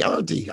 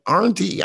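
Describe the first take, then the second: First: Said in the usual way. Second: "Auntie" called high and loud with an R, like "arntie". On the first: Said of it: "I thought there was an R". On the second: Retold or imitated. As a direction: call out "Auntie" putting an R in it. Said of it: "I thought there was an R in the fucking word".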